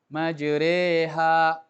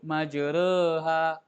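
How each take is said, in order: First: The vowel after the r sounds like E. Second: The vowel after the r is not E. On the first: The speaker calls it right. "Jadi bacanya E" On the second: The speaker calls it wrong. "Jangan antum sebut majreha"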